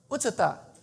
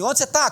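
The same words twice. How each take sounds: First: It is asked as a casual, normal question. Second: It is asked in an accusing, suspicious tone.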